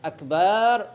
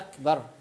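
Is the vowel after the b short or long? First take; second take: long; short. First: The vowel after the b is drawn out long. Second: The vowel after the b is kept short. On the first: It refers to big drums. The speaker calls it wrong. "ولا يمد في الباء" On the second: It means greater, expressing greatness. The speaker calls it right. "لهذا يقولوا أكبر"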